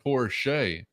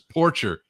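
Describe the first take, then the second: First: The surname sounds like the car brand Porsche. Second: The surname does not sound like the car brand. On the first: The speaker calls it right. "Did I hear a Porsche in there?" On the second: The speaker calls it wrong. "I've been reading this as Porcher"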